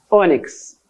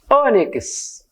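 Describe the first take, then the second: First: Ônix closed, the Brazilian way; Brazilian-style ônix. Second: Ônix sung out high like in Portugal; Portuguese-style ônix. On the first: (Ônix com o fechado, à brasileira) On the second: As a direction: say ônix with a high, open first vowel. (ônix com o aberto, à portuguesa) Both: Shown as a demonstration. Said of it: "eles não fecham como nós".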